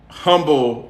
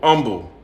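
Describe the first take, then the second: First: The word begins with an audible H sound. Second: The word begins with no H sound.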